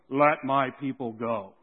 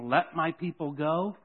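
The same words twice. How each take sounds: First: It is said in a deep voice. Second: It is said in a normal voice.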